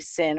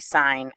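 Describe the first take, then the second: First: The word has a short vowel, like 'sin'. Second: The word has a long vowel, like 'sign'. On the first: The speaker calls it wrong. "we don't say sin or cos, it just doesn't make sense" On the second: The speaker calls it right. "We say sine and cosine"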